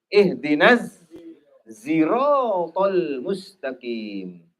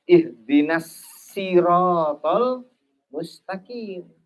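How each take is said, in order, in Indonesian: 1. Siratal diawali dengan bunyi z. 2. Siratal diawali dengan bunyi s biasa. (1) "diganti dengan huruf zai" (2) "shad ini diganti dengan sin"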